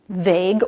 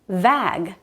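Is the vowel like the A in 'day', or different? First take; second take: day-like; different. First: The vowel sounds like the A in day. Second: The vowel differs from the A in day. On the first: The speaker calls it right. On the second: The speaker calls it wrong.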